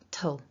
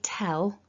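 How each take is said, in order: First: The vowel is a weak, reduced schwa. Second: The vowel is a full, clear e sound. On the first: The speaker calls it right. "it's tull with the weak schwa" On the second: The speaker calls it wrong. "we don't want to say tell"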